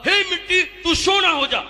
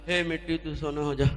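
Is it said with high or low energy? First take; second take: high; low. First: It is said with great enthusiasm. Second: It is said with little enthusiasm.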